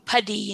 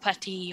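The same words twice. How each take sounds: First: The middle consonant sounds like a D. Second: The middle consonant sounds like a T. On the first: The speaker calls it wrong. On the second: The speaker calls it right.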